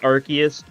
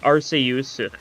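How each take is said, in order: First: The name is pronounced in the English style. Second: The name is pronounced in the Japanese style. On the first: This avoids sounding like a rude word. "it's pronounced Arceus usually in English" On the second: This is how the original version says it. "pronounced like Arceus in like Japanese"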